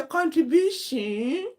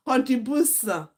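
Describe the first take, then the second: First: "Contribution" drawn out slow, higher, with a rising mock-posh tune; put-on accent. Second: A hammed-up fake posh accent on "Contribution"; mock the auntie stretching "Contribution"; put-on accent. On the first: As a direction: overdo the fake accent on "Contribution". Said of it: "the one that used to say". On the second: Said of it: "that big auntie that used to form accent".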